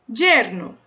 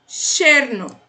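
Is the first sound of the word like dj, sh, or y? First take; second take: dj; sh. First: The word begins with a dj sound. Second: The word begins with an sh sound. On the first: "A segunda é a que eu falo, som de D J" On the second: "a primeira é com som de X"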